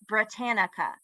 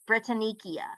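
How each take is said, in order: First: The word ends with a plain 'nica' sound. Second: The word ends with an added 'nicia' sound. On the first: The speaker calls it right. "Britannica is how you say it" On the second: The speaker calls it wrong. "That's a mispronunciation"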